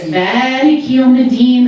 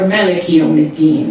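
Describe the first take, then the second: First: The first vowel of Maliki is long. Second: The first vowel of Maliki is short. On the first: God is the owner of the Day of Judgment. "the sort of possessor of um, the Day of Judgment" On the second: God is the king of the Day of Judgment. "The Lord of, or sovereign um, of the Day of Judgment"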